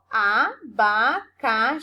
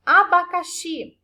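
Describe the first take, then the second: First: "abacaxi" slowly split as a, ba, ca, XI; stress on final syllable. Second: Said in the usual way. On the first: Shown as a demonstration. Teacher showing pupils the stronger xi, "abacaxi" broken into syllables. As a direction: sound out "abacaxi" syllable by syllable, pushing the last one, xi. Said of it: "perceberam que a prof pronunciou com mais força o xi". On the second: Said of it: "A próxima palavra que a prof colocou como exemplo".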